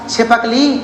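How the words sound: The word breaks after 'chhip', before 'kali'. The speaker calls it right. "वो यहाँ तोड़ लेगा छिपकली"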